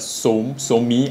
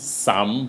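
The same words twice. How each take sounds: First: It is said as two syllables. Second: It is said as one syllable. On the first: The speaker calls it right. "but so-me" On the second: The speaker calls it wrong. "I believe it's not pronounced as some"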